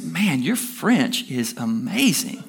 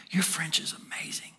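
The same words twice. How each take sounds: First: Slow, drawn-out admiration; slowly savored mock amazement; impressed compliment. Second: Hushed whisper of the compliment; very soft, voiceless murmur; whispered aside. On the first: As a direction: act out an amazed compliment, stretching the words. Man compliments woman after service. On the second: Retold or imitated. Repeats the compliment under breath.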